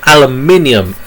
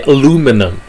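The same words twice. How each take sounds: First: "aluminium" said the British way, five syllables, stress on MIN; British pronunciation. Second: "aluminum" said the American way, four syllables, stress on LU; American pronunciation. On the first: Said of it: "But we British, so we say". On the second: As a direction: say "aluminum" as a-LOO-mi-num. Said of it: "as the Americans like to say". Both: Shown as a demonstration.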